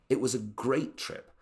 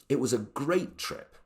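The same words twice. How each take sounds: No difference in how they are said.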